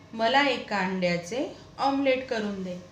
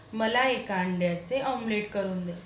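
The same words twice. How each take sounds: The two takes are said the same way.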